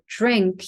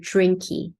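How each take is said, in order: First: The word ends cleanly on the final consonant. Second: A small extra vowel follows the final consonant.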